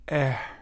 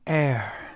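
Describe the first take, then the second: First: It is said with a lot of breath. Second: It is said with little breath.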